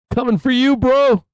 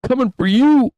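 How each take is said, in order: First: Playful threat. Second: Louder taunt. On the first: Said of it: "We're gonna say". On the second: Repeat taunt. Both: Pretend.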